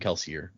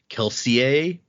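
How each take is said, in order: First: The name is said with plain English pronunciation. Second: The name is said with French-style pronunciation. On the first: This is how everyone usually says it. "no one says it like that" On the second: This is the technically correct pronunciation. "the technical correct pronunciation of the names is more French"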